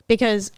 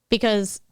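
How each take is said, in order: Both takes have the same delivery.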